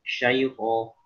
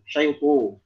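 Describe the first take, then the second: First: The heavy letter keeps a clear open a vowel. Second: The heavy letter's vowel is pulled toward u. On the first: The speaker calls it right. "berikan ketebalan dengan sempurna" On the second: The speaker calls it wrong. "setebal-tebalnya sampai seakan-akan mengarah kepada vokal u"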